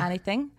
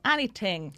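First: The th is made lightly against the teeth. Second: The th is made with exaggerated heavy force. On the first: The speaker calls it right. "people use it against the teeth, like a th" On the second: The speaker calls it wrong. "people tend to go, anything, which is too"

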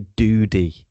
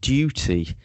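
First: It is said in an American accent. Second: It is said in a British accent.

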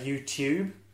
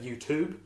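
First: The t is said like a ch sound. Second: The t is said as a clear t. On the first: This is the New Zealand way of saying it. "Because we also say YouTube" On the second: This is the American way of saying it. "Americans would pronounce that YouTube"

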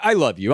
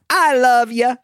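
First: It is said in a plain serious voice. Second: It is said in a silly cartoon voice.

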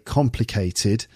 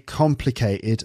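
First: The T is fully pronounced. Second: The T is replaced by a glottal stop. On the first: "I say complicated" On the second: "But I don't say complicated"

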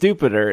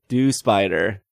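First: The name ends rhyming with 'Jupiter'. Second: The name ends with the word 'spider'. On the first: "It's supposed to rhyme with Jupiter" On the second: "It's do plus spider"

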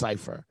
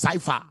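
First: The name ends with a lazy, relaxed 'er' vowel. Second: The name ends with a strong open 'ah' vowel. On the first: The speaker calls it right. "Think more lazy ER" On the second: The speaker calls it wrong. "not strong A"

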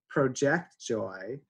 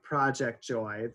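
First: The stress is on the second syllable of project. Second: The stress is on the first syllable of project. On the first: To project is to create joy for yourself and others. "if you pronounce it the other way" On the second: A project is something you do at home. "So like Project Joy, the projects you're doing at home"

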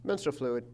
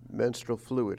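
First: It is said friendly, with an Australian twang. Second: It is said in a creepy, sinister way.

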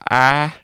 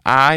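First: It is said in a Southern accent. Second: It is said in a non-Southern accent.

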